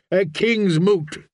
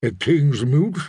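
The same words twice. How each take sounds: First: KING'S MOOT declared slowly, with a falling close; higher, drawn-out announcement of a "king's moot"; solemn proclamation. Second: "king's moot" echoed with a rising end; understated disbelief, lifting on MOOT; astonished question. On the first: Acted. Priest proclaims the summons. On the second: A narrator's reading. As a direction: gape at the words "king's moot". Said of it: "The Merlin gaped at him".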